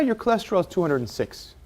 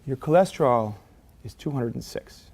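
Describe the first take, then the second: First: It is said in a relaxed, casual tone. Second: It is said in a serious, concerned tone. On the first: The result is nothing to worry about. "You only see that I'm feeling okay" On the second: The result is a serious problem. "You know how I feel about it"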